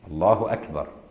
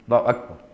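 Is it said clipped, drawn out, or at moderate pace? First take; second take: moderate; clipped. First: It is said at a moderate, normal length. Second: It is said very short and clipped.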